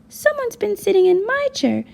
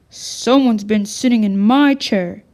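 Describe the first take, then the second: First: A small, high voice. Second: A big, deep, booming voice. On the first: "in his small voice" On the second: "boomed in his great big voice"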